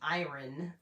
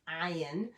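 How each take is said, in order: First: The word is said with an R sound. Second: The word is said without an R sound. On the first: "if you're North American, you pronounce the R in there" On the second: "as they say here"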